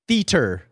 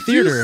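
First: It rhymes with Peter, with no extra r. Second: It carries an extra r sound inside it. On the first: The speaker calls it right. "say it like Peter" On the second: The speaker calls it wrong. "I add an extra R"

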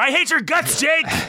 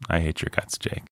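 First: The line is yelled loudly. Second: The line is said quietly and simply. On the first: The anger is shown openly. "than if I yell it" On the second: The anger is held back and seems scarier. "if I just say it like very simply"

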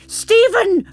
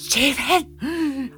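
First: It is said without much of a gasp. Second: It is said with a breathy gasp.

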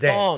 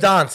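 First: The word is said in a general Australian way. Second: The word is said in a British-like way. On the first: This is how most Australians say it. "instead of dance" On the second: This is how Adelaide speakers say it. "They say dance"

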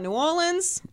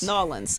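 First: The name is said with all its syllables. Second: The name is squeezed into two short syllables. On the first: The speaker calls it wrong. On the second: The speaker calls it right.

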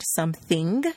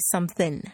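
First: The ending is a full NG sound. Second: The ending is only an N sound. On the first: "pronouncing the NG sound" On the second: "We don't pronounce the G sound, just the N"

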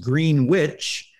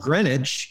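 First: The word is said slowly. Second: The word is said quickly. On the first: "if you slow it down" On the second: "if you're speaking fast"

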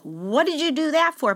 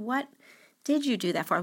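First: It sounds accusing and condemning. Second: It sounds curious and caring.

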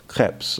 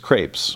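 First: The word is said in a French way. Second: The word is said in a plain English way. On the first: This copies how the speaker's French-speaking wife says it. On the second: This is the speaker's own everyday pronunciation.

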